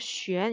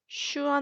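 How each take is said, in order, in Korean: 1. 'xüen'처럼 들리며, 'ü'는 앞쪽 소리입니다. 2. 'shoo-ahn'처럼 들리며, 모음은 'a'입니다. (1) "쉔 이렇게 읽어줘야 됩니다" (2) "슈안 아닙니다"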